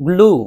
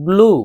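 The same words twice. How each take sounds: No difference in how they are said.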